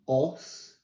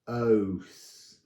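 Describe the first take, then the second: First: The vowel is a short o sound. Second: The vowel sounds like the letter name O. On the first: The speaker calls it wrong. "rather than saying os" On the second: The speaker calls it right. "say it as the letter is now pronounced"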